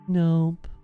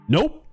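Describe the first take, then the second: First: The word is said slowly, drawn out. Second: The word is said very quickly, clipped. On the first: The speaker calls it wrong. "You don't say nope" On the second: The speaker calls it right. "As fast as you can say it"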